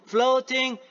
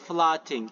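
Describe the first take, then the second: First: The first vowel is an oh sound. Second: The first vowel is not an oh sound. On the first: The speaker calls it right. "It is O U" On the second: The speaker calls it wrong. "Please, not floating"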